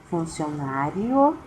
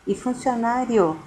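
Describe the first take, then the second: First: Funcionário stretched slowly, with i and o split into fun-ci-o-ná-rio; syllables split apart. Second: Said in the usual way. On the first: Shown as a demonstration. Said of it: "se você separar o i e o o". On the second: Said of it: "você não separando o i e o o".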